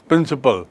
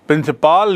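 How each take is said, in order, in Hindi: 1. आखिरी अक्षर में छोटा, कमज़ोर स्वर है। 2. आखिरी अक्षर में लंबा 'aa' स्वर है।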